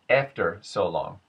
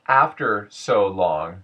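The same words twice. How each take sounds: First: The first vowel is closer to an e sound. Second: The first vowel is an open a sound.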